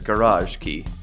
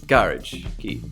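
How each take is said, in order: First: Garage is said in an American way. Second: Garage is said in a British way. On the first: "if your uh, focus is on American English, then it's garage key" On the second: "If you prefer British English, then it's garage key"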